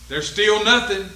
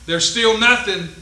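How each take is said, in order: Both takes have the same delivery.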